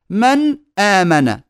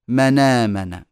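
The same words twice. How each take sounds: First: من آمن with a glottal catch after nun; full hamza. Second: منامن run together as ma-naamana; hamza vowel transferred. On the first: Teacher showing the original, hamza fully sounded. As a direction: separate the words in من آمن with hamza. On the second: Teacher showing naql, nun takes the hamza's vowel. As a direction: slide nun into long aa in منامن. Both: Shown as a demonstration. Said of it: "تصير".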